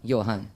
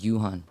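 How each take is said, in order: First: The syllables are said in the Mandarin way. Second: The syllables run together in an English-like way. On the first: The speaker calls it right. "if you say it the correct way" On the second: The speaker calls it wrong. "once I connect it together, it's sound like Yuhan"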